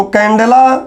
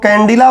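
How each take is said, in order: First: कैंडेला with "de" as the middle syllable; candela with "e". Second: कैंडिला with "di" as the middle syllable; variant with "i". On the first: Teacher repeating the unit for students, कैंडेला said with "de". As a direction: pronounce कैंडेला with a long "e", not "i". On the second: Teacher repeating others' variant for students, कैंडिला said with "di". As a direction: pronounce कैंडिला with an "i", not "e". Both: Shown as a demonstration. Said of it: "कुछ लोग कैंडिला बोलते हैं".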